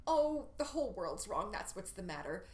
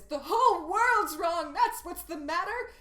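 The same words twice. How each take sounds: First: "Oh" lifted, then "that's what's the matter" brushed off; waving away her own confusion; dismissive. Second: Much higher and louder, slow proclamation; big declaration. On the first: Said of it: "her final line". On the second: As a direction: belt it out as a grand feminist statement. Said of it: "this big declaration". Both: Shown as a demonstration.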